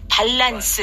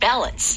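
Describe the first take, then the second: First: It is said with Korean-style loanword pronunciation. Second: It is said with English pronunciation, first syllable stressed. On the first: "밸런스 이렇게도 말하게 되지만" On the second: "영어 발음으로는"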